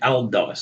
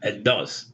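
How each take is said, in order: First: A clear L sound comes before the D. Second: The L blends into a doubled D sound. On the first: The speaker calls it wrong. "You don't say Al-Dars" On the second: The speaker calls it right.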